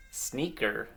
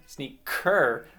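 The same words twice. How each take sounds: First: Said in the usual way. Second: "Sneaker" split, second syllable punched louder; stress on last syllable. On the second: Shown as a demonstration. Teacher showing children why the endings don't rhyme, stressed last syllable. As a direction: lean hard on the ending of "Sneaker". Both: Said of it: "Cur and chur".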